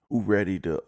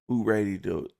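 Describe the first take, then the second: No difference in how they are said.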